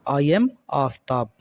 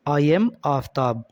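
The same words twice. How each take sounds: The two takes are said the same way.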